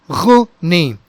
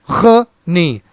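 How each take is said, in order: The two takes are said the same way.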